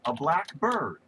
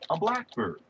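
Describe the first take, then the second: First: The stress falls on the word bird. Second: The stress falls on the word black. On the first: "It could be any number of things" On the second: It is one particular kind of bird. "The accent is on the first syllable"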